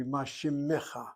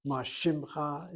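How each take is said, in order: First: Shimecha with a full e after the m, shi-me-cha; careful textbook ma shimecha in three syllables; correct grammatical form. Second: Ma shimcha said as two quick syllables, shim-cha; casual spoken Ma shimcha, the e dropped; street form. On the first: Teacher correcting the spoken form for students, carefully. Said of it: "Should be". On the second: Teacher showing students the everyday spoken form, casually. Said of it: "is what is spoken". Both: Shown as a demonstration.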